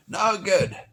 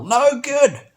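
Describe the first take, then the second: First: Said in the usual way. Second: No good, much higher and louder; emphatic. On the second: Acted. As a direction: hammer the verdict home. Emphatic verdict on losing soul.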